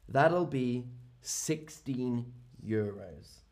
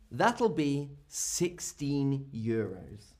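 First: Said in the usual way. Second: Slow, rising teacher's model of "That'll be sixteen euros"; slow model phrase. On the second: Shown as a demonstration. Teacher modelling the shop price slowly for learners.

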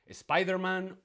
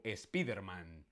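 First: "Spider-Man" with an English SPY; English pronunciation. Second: "Spiderman" as es-PEE-der-man; Spanish pronunciation. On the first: Teacher asking viewers to choose, English pronunciation. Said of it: "no Spiderman". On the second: Teacher asking viewers to choose, Spanish pronunciation. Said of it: "la correcta es que lo pronunciamos". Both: Shown as a demonstration.

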